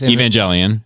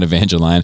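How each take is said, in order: First: The ending does not sound like the word lion. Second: The ending sounds like the word lion. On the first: The speaker calls it right. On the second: The speaker calls it wrong.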